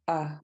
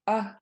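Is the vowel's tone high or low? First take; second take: low; high. First: The short vowel is said on a low tone. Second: The short vowel is said on a high tone. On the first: "low short A" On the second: "high tone"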